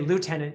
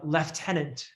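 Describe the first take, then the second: First: The first syllable sounds like 'loo'. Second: The first syllable sounds like 'left'. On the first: "like we would say down here" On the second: "you use the British pronunciation"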